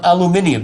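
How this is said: It is said with five syllables, British style.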